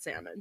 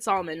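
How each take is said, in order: First: Said in the usual way. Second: Salmon said "SAHL-mun"; friend's pronunciation. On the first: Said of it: "and I said salmon". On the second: Retold or imitated. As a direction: sound the l in salmon. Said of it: "she said salmon and I said salmon".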